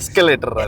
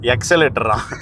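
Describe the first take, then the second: First: The word begins with an 'es' sound. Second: The word begins with an 'eks' sound. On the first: The speaker calls it right. "எஸ்கலேட்டர் அது" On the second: The speaker calls it wrong.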